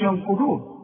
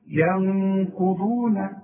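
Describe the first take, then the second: First: The nasal n is dropped quickly, not held. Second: The nasal n is held for two beats. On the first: The speaker calls it wrong. "ما تقولش ينقضون وتضيعها" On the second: The speaker calls it right. "لازم تغنها ... حركتين"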